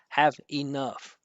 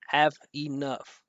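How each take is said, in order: First: Each word is pronounced separately, with a break. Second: The same.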